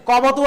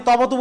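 First: "কবতু" met ক aan het begin; beginklank ক. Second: "তবতু" met ত aan het begin; beginklank ত. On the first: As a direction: spreek "কবতু" uit met een k-klank vooraan. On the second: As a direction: spreek "তবতু" uit met een t-klank vooraan. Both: Shown as a demonstration. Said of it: "আপনি তবতু বলছেন".

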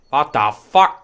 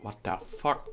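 First: Loud, startled repeat of what the fuck; loud incredulous cry; shocked outburst. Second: Said in the usual way. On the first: Real, not acted. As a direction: blurt it out in shock.

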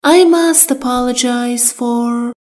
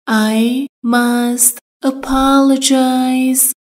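First: Said in the usual way. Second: Slow drill. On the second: Shown as a demonstration. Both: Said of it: "باید عذرخواهی کنم".

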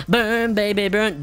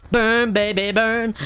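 First: Hype chant repeated. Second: High, loud sing-song chant; hype chant. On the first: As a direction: chant it again, still riding the high. Repeats chant while torching zombies. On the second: Gamer torching zombies for viewers, loud high chant. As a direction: belt it out like a victory chant. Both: Acted.

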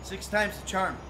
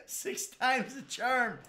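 First: Said in the usual way. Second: Slow, higher drawn-out line; wry slow repeat; slow ironic drawl. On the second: Real, not acted. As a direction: stretch it out, mocking yourself.

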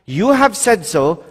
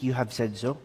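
First: Slow, firm "You have said so" with weight on "have"; steady, assured "You have said so"; firm reply. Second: Soft, low, weak "you have said so"; timid, barely voiced "you have said so"; weak reply. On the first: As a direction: say "You have said so" slowly and with conviction. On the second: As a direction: say "you have said so" faintly, without conviction. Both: Shown as a demonstration. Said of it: "It was not a weak".

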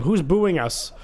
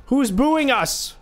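First: Said in the usual way. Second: Higher and slow, stretching every word; slow mock offense. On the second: Real, not acted. Gamer asks the booing crowd, slow and higher. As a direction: drag it out like you're wounded. Repeats, drawn out.

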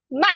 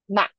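First: MA high and falling; fourth tone. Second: MA short, at mid pitch; neutral fifth tone. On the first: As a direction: drop MA firmly from a high start. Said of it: "is fourth tone". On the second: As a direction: say MA briefly with no big fall. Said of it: "is fifth tone, the neutral tone". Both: Shown as a demonstration.

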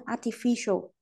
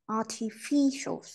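First: Said in the usual way. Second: "Artificial" drawn out slowly, ar-ti-FI-cial; stress on FI. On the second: Shown as a demonstration. Teacher pointing students to the F syllable, slow stressed demonstration. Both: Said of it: "Chữ F này này".

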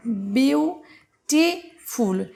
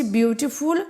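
First: "বিউটিফুল" slowly split as বিউ, টি, ফুল; syllable by syllable. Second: Said in the usual way. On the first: Shown as a demonstration. Teacher showing three syllables, "বিউটিফুল" said piece by piece with pauses. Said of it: "এটা কি এক টানে উচ্চারণ করছি? না". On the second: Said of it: "এটা কি এক টানে উচ্চারণ করছি".

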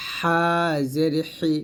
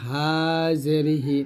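First: হা জের হি with both h sounds squeezed from mid-throat; pressed throat ha. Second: Said in the usual way. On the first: Shown as a demonstration. Teacher contrasts the two ha letters, হা and হি pressed. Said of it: "গলার মাঝখান থেকে চাপ দিয়ে". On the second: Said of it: "গলার শুরু থেকে নর্মালভাবে".

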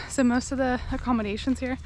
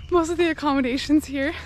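First: Panting mid-sentence; breathless from the climb; out of breath. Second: Said in the usual way. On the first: Real, not acted. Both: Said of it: "I'm sorry, I'm out of breath".

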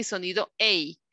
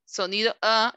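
First: "A" in "sonido A" said "ey"; gliding English "ay" on "A"; long A sound. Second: "A" in "sonido A" as in glass; short A sound. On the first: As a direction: say "A" like the vowel in cake. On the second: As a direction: say "A" as a short "a/uh", no glide. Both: Shown as a demonstration. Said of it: "sonido A y sonido A".

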